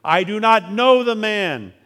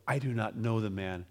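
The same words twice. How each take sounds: First: Higher, louder and slow, each word hammered; cursing denial. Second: Softer, lower, muttered denial; a hushed second denial; denial under oath. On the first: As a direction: swear it out in fury. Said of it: "began to curse and swear". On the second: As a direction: let it drop away quietly. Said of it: "with an oath". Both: A narrator's reading.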